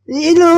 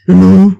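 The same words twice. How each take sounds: First: It is said in a small, high baby voice. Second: It is said in a low, deep natural voice.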